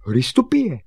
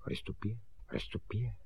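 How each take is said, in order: First: High, loud call; raised, ringing call. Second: Very soft muttered repeat; hushed self-rehearsal; repeating to himself. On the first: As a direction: shout it out to someone outside. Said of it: "a volal". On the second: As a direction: try the word out under your breath. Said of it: "Opakoval si Honzík". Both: Acted.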